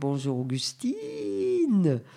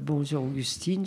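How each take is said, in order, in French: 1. C'est dit d'une voix joueuse, déformée et drôle. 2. C'est dit d'une voix ordinaire et naturelle. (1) "On fait des bêtises avec la voix comme ça parce que c'est amusant" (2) "au lieu de dire"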